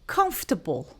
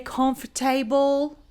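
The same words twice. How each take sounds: First: The ending is short and reduced, without r. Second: The ending sounds like the full word table. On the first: The speaker calls it right. "We just say comfortable" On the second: The speaker calls it wrong. "it has nothing to do with tables"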